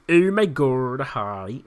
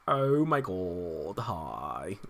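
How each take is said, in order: First: It is said in a plain, ordinary voice. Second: It is said in a Valley girl voice. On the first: The speaker calls it wrong. "I'm saying it wrong again" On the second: The speaker calls it right. "that's how he wants people to say it"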